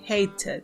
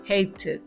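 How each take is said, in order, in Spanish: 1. La consonante del medio es una T clara. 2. La consonante del medio es una T clara.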